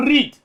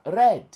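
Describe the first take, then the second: First: "read" with a long ee, higher and louder; present-tense "read". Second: "Read" with a short e, as "red"; past-tense "Read". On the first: Host shows listeners the present tense, "read" as "reed". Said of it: "Vous savez que c'est lire". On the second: Host shows listeners the past tense, "Read" as "red". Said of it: "Mais au passé, c'est quoi?". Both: Shown as a demonstration.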